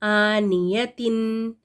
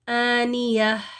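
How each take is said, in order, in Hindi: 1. शब्द t और स्वर की ध्वनि से खत्म होता है। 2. शब्द नरम h की ध्वनि से खत्म होता है। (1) "ये ता इसको प्रोनाउंस किया जाता है, तन तिन तुन" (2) "हा साकिन हो जाएगा"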